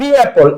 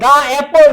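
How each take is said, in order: First: The word 'the' sounds like 'dee'. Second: The word 'the' sounds like 'duh'. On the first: The speaker calls it right. "এখন উচ্চারণটা আসছে দি অ্যাপল" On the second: The speaker calls it wrong. "দা অ্যাপল নাকি দি অ্যাপল"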